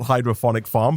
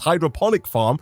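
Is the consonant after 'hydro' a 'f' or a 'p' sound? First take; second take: f; p. First: The consonant after 'hydro' is an 'f' sound. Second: The consonant after 'hydro' is a 'p' sound. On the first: The speaker calls it wrong. "which I've been pronouncing wrongly" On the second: The speaker calls it right. "It's hydroponic farm"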